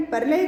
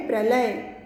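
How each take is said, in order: First: "प्रलय" split as "par-lay"; incorrect form. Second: "प्रलय" opening on a joined "pra"; correct pronunciation. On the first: Teacher reads out the word to be corrected, incorrect form. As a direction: put the vowel before the r in "प्रलय". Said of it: "का शुद्ध शब्द है". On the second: Teacher gives students the pure word, correct pronunciation. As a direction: join p and r at the start of "प्रलय". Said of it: "शुद्ध शब्द है प्रलय". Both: Shown as a demonstration.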